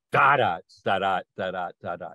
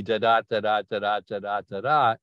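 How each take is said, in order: First: "da da" chanted as DUM-da, stress on the first "da", quick and lower; trochaic beat, first syllable stressed. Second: "da da" chanted as steady da-DUM pairs, stress on every second "da", brisk; expected iambic beat. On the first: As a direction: flip the beat so the first "da" lands hard. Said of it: "the accent is on the first syllable". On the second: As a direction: tap out an even iambic da-DUM pulse on "da". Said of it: "You think it's gonna be". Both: Shown as a demonstration.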